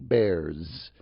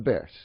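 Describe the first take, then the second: First: The final sound is a buzzing Z. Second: The final sound is a hissing S. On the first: "I don't say like a Z" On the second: "I say like an S, as in sauce"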